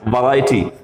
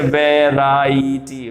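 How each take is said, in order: First: वैरायटी starting on a short "vuh", not "ve"; correct pronunciation. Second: वैरायटी with a full "ve" and drawn-out "raa-ee-tee"; wrong pronunciation. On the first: English teacher answering her own question for learners, correctly pronounced. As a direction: say वैरायटी as vuh-RAI-tee. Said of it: "वा होगा". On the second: English teacher showing learners the common mistake, mispronounced slowly. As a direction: say वैरायटी slowly with an open E first. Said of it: "वैरायटी नहीं बोलेंगे". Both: Shown as a demonstration.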